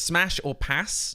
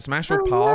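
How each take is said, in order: First: It is said in a plain American accent. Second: It is said in a posh British accent. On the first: "normally for you guys" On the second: "in a British accent"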